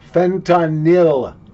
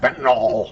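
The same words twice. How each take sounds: First: The ending does not sound like 'all'. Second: The ending sounds like 'all', as in Armor All. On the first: The speaker calls it right. "Fentanyl, not fentanyl" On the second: The speaker calls it wrong. "Fentanyl makes it sound like armor all"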